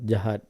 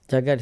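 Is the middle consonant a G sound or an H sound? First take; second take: H sound; G sound. First: The middle consonant is an H sound. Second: The middle consonant is a hard G sound. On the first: It is the original Malay word. "Jagat is the Malay word" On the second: It is the Indian way of saying the word. "it's an Indian way of uh, pronouncing it because Indians can't pronounce a G. Uh, sorry, H"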